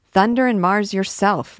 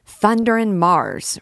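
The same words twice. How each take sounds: First: Loud, higher echoed oath; student cheekily echoing the captain's loud oath; mock swearing back. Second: Loud, slow, higher oath; booming captain's curse; swearing loudly. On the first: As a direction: fling Thunder and Mars yourself back in jest. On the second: Acted. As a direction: bellow Thunder and Mars like a soldier.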